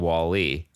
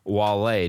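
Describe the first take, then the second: First: The name ends with an 'ee' sound. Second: The name ends with an 'ay' sound. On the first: The speaker calls it wrong. "don't say [name]" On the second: The speaker calls it right. "it was [name]"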